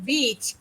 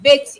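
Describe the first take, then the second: First: Beach with a long, tense ee; long vowel. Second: Bitch with a short, lax i; punched short i in bitch; short-vowel mispronunciation. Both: Shown as a demonstration. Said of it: "long vowel sounds and short vowel sounds".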